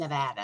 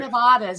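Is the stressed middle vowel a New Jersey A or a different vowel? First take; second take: New Jersey A; different vowel. First: The middle vowel is the New Jersey A. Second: The middle vowel is not the New Jersey A. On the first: It names the state where locals live. "but we live in Nevada. It's like a New Jersey A" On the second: It names the mountain range. "So it's the Sierra Nevadas"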